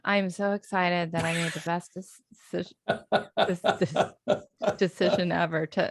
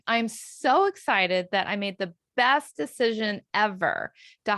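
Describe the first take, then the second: First: It sounds sighing, halting and deflated. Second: It sounds smiling, proud and genuinely confident.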